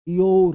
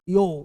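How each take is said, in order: First: The word ends with an audible r sound. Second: The word ends on the vowel, without r. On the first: The speaker calls it wrong. "अगर बोलते हो ऐसे योर तो गलत" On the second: The speaker calls it right. "बोलते हैं यो यो यो"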